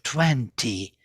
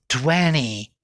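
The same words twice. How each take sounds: First: The t after the n is clearly heard. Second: The t after the n is dropped. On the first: "instead of" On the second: "T disappeared"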